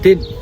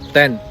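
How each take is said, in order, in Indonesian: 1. Vokalnya dinaikkan, terdengar dekat dengan 'tin'. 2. Vokalnya adalah bunyi 'e' terbuka yang biasa.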